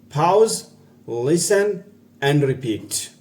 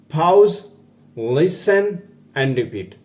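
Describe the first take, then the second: The two takes are said the same way.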